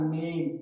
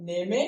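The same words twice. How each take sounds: First: नेम in one syllable, "naym"; silent final e. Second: नेमे in two syllables, "nay-may"; wrong final e sounded. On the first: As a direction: end नेम on the m. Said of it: "इसे क्या बोलना है?". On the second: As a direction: misread नेमे with an e voiced at the end. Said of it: "नहीं बोलना है". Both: Shown as a demonstration.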